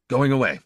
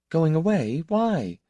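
First: Going away said flat with a falling tune, final; flat statement. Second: Going away? rising high in surprise, then a higher Why; surprised question. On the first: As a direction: state it as settled fact. He announces he is leaving. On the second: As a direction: catch his words and throw them back, startled. She echoes his news, surprised. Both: A narrator's reading.

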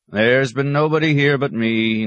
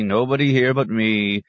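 First: Bleating goat. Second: Said in the usual way. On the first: Retold or imitated. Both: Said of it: "taught to bleat".

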